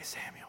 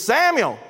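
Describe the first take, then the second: First: The name is said in a quiet whisper. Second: The name is called out loudly. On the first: The speaker calls it wrong. "This ain't no whisper like" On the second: The speaker calls it right. "Exclamation point, right? This ain't no quiet"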